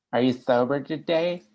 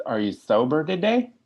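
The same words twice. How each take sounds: First: Higher, sing-song parody of the syrupy "Are you sober today?"; mocking sweet AA voice. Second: Higher, syrupy mock-sweet question on "today"; sweet phone volunteer. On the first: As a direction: lay on the syrupy AA tone to make fun of it. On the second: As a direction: put on the sugary tone of an AA phone volunteer, rising on "today". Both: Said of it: "that's how you people talk when I'm new".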